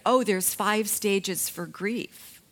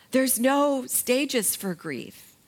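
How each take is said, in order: First: Said in the usual way. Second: "no" held high and slow, the whole line drawn out; slow, emphatic "There's no stages for grief" with a high "no"; stress on no. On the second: Real, not acted. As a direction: lean hard on "no" to flatly deny it.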